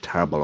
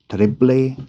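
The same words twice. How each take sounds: First: The word is pronounced as plain English. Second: The word is pronounced in a non-English way. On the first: The speaker chooses the simple everyday form. "I'll just call it terrible, okay? I mean, plain English" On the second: This is how many other people say it. "I did hear a lot of people pronounce this part as terrible"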